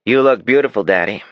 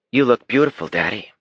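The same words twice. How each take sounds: First: Higher, louder mocking copy of his sister; a brother parroting his sister to make fun of her; mocking imitation. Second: Put-on high, adoring child's voice; sweet little girl. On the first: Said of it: "Damon mimicked his sister". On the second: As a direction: gush over Daddy like a proud little girl. Daughter compliments her father.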